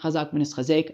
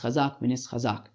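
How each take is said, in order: First: The last word ends with an 'ek' sound. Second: The last word ends with an 'ak' sound. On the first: The speaker calls it wrong. "It's not" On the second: The speaker calls it right.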